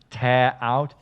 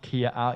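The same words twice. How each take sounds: First: Tear is said as in ripping something. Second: Tear is said as in crying. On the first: The material is torn away. The speaker calls it right. "This is tear out" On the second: Someone is crying. The speaker calls it wrong. "not tear out. If the tear is out, it means we are crying"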